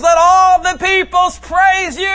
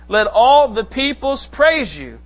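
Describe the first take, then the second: First: All much higher and louder, slow, "all" punched; with emphasis. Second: Said in the usual way. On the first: Shown as a demonstration. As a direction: proclaim it like an exclamation point. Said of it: "you say it with emphasis". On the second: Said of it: "y'all say it monotone".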